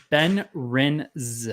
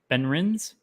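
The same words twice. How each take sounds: First: Ben Rins drawn out slowly, word by word; slow, careful reading of Ben Rins; sounding out pronunciation. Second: Ben Rins tried quickly with a rising end; questioning pronunciation. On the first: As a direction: sound out Ben Rins with a long buzzing end. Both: Shown as a demonstration. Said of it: "it's pronounced".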